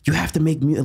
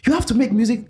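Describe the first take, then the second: First: It is said in the speaker's usual accent. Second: It is said in a Nigerian accent.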